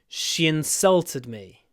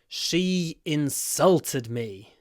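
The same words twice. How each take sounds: First: The words run together in connected speech. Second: The words are said separately and clearly.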